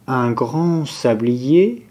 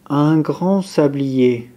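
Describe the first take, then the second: No difference in how they are said.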